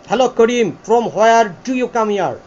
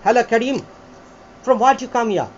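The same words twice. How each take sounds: First: Slow, fully sounded British accent demo; British "ta-ta system" accent. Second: British accent demo, "Hello" run lightly into the name; British "tha-tha" accent. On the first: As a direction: spell out "from where do you come here" slowly in a British style. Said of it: "এটা হচ্ছে টাটা system". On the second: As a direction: model the first British style of "from where do you come here". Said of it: "একটা হচ্ছে ঠাটা". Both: Shown as a demonstration.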